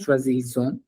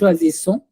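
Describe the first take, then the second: First: The middle consonant is a buzzing Z sound. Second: The middle consonant is a hissing S sound. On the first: The speaker calls it wrong. "This word is in- incorrectly pronounced" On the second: The speaker calls it right. "pronounced as S and not Z"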